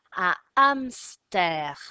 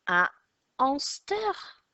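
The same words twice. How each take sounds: First: "hamster" slow and falling, m sounded; correct pronunciation. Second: "hamster" with nasal an, high questioning rise; wrong pronunciation. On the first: Teacher corrects the last word for pupils, slowly pronounced. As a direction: stretch "hamster" out firmly with a clear am. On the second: Teacher tests a wrong reading of the last word, questioning. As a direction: ask "hamster" as a doubtful mistake, m unsounded. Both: Shown as a demonstration. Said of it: "Non, un hamster".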